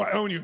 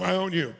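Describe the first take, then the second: First: Said in the usual way. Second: Playfully. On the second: Shown as a demonstration.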